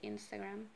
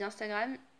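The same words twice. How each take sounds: First: It is pronounced the English way. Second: It is pronounced the French way.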